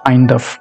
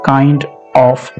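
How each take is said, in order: First: The two words are run together. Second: The two words are said separately. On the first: The speaker calls it right. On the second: The speaker calls it wrong.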